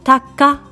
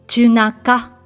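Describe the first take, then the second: First: It is said shortly, in two syllables. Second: It is said fully, in three syllables. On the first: It is a casual form used between close people. "音がとても短いのが特徴です。なんとたったの2 音節" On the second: It is the formal form. "正式なフランス語に書き換えると"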